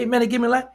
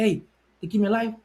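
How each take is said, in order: First: It is said with a louder, raised voice. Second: It is said at a normal, quieter volume.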